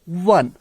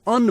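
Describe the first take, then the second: First: The word begins with a w sound. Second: The word begins with a plain vowel sound. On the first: The speaker calls it right. "लेकिन we pronounce it वन वन" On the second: The speaker calls it wrong. "अगर हम इसको ओ sound से पढ़ेंगे तो ये अन बन जाता है"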